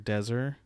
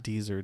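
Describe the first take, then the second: First: The first vowel sounds like 'e' in 'bed'. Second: The first vowel sounds like 'ee' in 'see'. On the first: The speaker calls it right. "I think you pronounce it Dezer" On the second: The speaker calls it wrong. "not Deezer"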